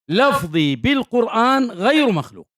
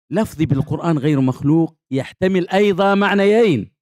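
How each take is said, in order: First: Slow, higher quote with weight on غير; quoting the innovators. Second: Said in the usual way. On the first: Retold or imitated. Teacher quoting what some innovators say, slow and raised. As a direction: lingers on غير in "لفظي بالقرآن غير مخلوق". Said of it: "يقولون".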